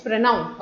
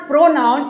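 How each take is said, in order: First: "pronoun" said softer and lower as the right version; correct pronunciation. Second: Pronoun said the wrong way, slow and drawn out; wrong pronunciation. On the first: Teacher modelling the right word for students: soft, falling pronoun. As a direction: give the correct "pronoun" with a quiet falling close. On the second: Teacher showing students the wrong way: slow, drawn-out pronoun. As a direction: stretch out "pronoun" slowly as the mistake to avoid. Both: Shown as a demonstration. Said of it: "ध्यान से सुनिए, pronunciation कैसा होता है".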